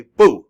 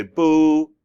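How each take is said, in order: First: BOO punched loud with a sharp fall; loud, abrupt, falling BOO; fourth-tone boo. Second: BOO drawn out without a sharp drop; long, level BOO; untoned boo. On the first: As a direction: say BOO short, as if angry. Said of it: "They say boo". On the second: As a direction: stretch BOO out evenly. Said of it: "They don't say boo". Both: Shown as a demonstration.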